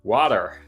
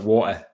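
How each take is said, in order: First: It is said with an American accent. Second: The T is dropped, Northeast England style.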